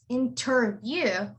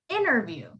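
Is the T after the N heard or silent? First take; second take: heard; silent. First: The T after the N is clearly pronounced. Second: The T after the N is dropped entirely. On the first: The speaker calls it wrong. "we don't say it as interview" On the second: The speaker calls it right. "we say it as interview"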